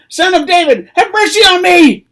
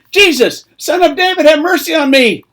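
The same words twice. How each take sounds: First: Very high, very loud desperate cry; all-out shouted plea. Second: High, loud cry for mercy; shouted plea. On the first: Blind beggar refusing to be silenced by the crowd, all-out shout. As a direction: bellow it at full force, pitched right up. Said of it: "he cried out even more loudly". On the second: Blind beggar calling to Jesus as he passes, shouted plea. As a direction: yell your head off to be noticed. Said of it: "He began to shout and say". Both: Acted.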